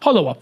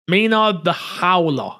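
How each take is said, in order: First: The last word is said with three syllables. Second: The last word is said with two syllables. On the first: The speaker calls it right. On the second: The speaker calls it wrong.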